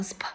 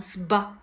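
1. s后面的辅音听起来像p。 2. s后面的辅音听起来像b。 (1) "不能念成sp" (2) "要读成sb"

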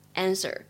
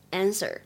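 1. 它是用美式口音读的。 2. 它是用美式口音读的。

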